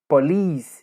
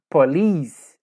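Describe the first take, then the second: The two takes are said the same way.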